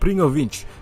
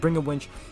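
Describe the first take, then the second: First: It is said in a put-on Russian accent. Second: It is said without a Russian accent. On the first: The speaker calls it wrong. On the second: The speaker calls it right.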